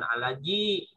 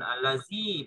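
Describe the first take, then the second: First: The middle consonant is a j sound. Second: The middle consonant is a hissing z sound. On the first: "bukan alaji gitu ya" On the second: "bukan allazi"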